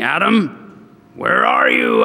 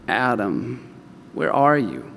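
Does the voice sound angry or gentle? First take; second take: angry; gentle. First: The voice sounds angry and harsh. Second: The voice sounds gentle and caring. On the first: The speaker is condemning the listener. The speaker calls it wrong. "That's how they hear it. God's angry" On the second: The speaker is lovingly seeking the listener. The speaker calls it right. "Here's how I hear it now, knowing him"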